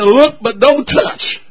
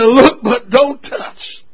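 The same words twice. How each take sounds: First: Slow, drawn-out warning with LOOK lifted; a pastor's playful slow warning to husbands; slow, deliberate. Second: Even slower, stretched-out warning, rising on LOOK; slower, deliberate. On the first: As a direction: spell it out slowly and teasingly. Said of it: "I said, "Look, but don't touch". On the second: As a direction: drag it out even more for the joke. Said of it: "I said". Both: Shown as a demonstration.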